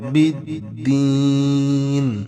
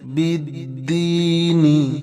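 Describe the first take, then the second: First: The word ends on the final n consonant. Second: The word ends with a final i vowel. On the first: The reader stops at this word. "থামলে হবে বিদ্দিন" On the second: The reading continues without stopping. "নুন জেরেনি"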